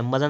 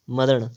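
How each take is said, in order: First: मरण with a dental n; wrong pronunciation. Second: मरण with a retroflex ṇ; tongue curled back to end मरण; correct pronunciation. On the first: Teacher showing the error, मरण with dental n. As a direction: end मरण on a plain n. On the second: Teacher correcting, मरण with retroflex ṇ. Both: Shown as a demonstration. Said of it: "मरण नहीं, मरण".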